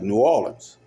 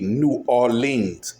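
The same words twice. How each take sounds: First: The name is said relaxed, without stressing syllables. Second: The name is said carefully, stressing each syllable. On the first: The speaker calls it right. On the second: The speaker calls it wrong.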